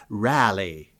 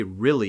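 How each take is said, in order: First: "rally" for really, with a broad open first vowel; Mid-Atlantic "rally" in place of really; Mid-Atlantic pronunciation. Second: Said in the usual way. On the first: Shown as a demonstration. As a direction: say really as "rally", old-movie actress style. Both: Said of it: "you don't say "really," you say "rally".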